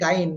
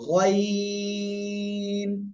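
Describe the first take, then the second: First: It starts with a plain g, with no lengthening. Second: It starts deep in the throat with a drawn-out vowel. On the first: The speaker calls it wrong. "But এটা কিন্তু গাইন হবে না" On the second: The speaker calls it right. "গলার শেষ ভাগ থেকে মোটা আওয়াজে তিন আলিফ টেনে উচ্চারণ করবেন"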